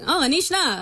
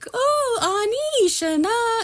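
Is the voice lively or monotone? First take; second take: monotone; lively. First: It is said in a flat, monotone voice. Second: It is said with a lively, varied tune.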